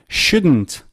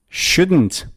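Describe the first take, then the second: The two takes are said the same way.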